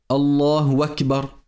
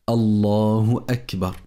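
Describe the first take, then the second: First: Akbar starts with a w sound. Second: Akbar starts with a glottal stop. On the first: The speaker calls it wrong. "il ne faut pas changer la hamza du mot akbar en waouh. Donc on ne dit pas" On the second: The speaker calls it right. "la bonne prononciation c'est de dire"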